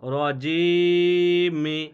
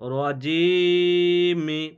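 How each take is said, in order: First: The word ends with a short i vowel. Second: The word ends with a short i vowel.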